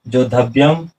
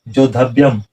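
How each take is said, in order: No difference in how they are said.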